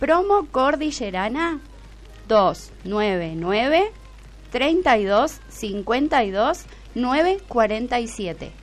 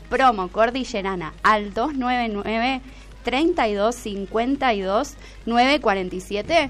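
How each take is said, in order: First: It is said slowly. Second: It is said at normal speed.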